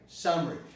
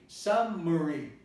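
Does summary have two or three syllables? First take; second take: two; three. First: The middle vowel is dropped. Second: The middle vowel is pronounced. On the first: "without the vowel... it's going to be eliminated" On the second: "you don't say summary, summary, although you might say it"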